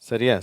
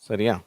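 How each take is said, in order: Both takes have the same delivery.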